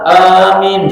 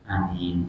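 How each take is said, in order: First: The word is said loudly and firmly. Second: The word is said weakly and hesitantly. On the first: The speaker calls it right. "Amin bacaannya mantap" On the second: The speaker calls it wrong. "Kurang gizi"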